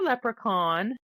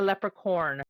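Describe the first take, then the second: First: The last syllable does not sound like corn. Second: The last syllable sounds like corn.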